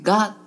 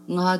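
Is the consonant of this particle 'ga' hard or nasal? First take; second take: hard; nasal. First: The g is hard and strong. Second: The g is soft and nasal. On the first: The speaker calls it wrong. "がっていうと強調されすぎてしまっていう風に聞こえたりする" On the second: The speaker calls it right. "普通のがじゃなくて"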